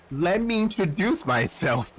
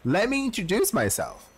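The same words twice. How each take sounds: First: Giggling through the line; can't keep a straight face; laughing through it. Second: Composed in-character line. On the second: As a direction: deliver it straight as the character. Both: Shown as a demonstration. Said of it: "That's not how it works".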